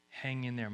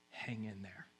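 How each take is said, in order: First: Said in the usual way. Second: Much softer, hushed comfort; God's whisper. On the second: Pretend. God whispering to a weary believer, hushed. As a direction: barely voice "Hang in there.". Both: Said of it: "he's whispering".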